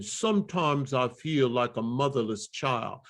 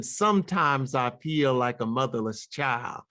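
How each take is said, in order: First: Rounded vowels on "Sometimes I", lips forward; rounder, darker tone. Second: Open, unrounded vowels on "Sometimes I"; spread, E-based tone. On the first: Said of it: "rounder, almost darker sound". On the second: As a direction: keep "Sometimes I feel" spread, lips back. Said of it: "rather than". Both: Shown as a demonstration.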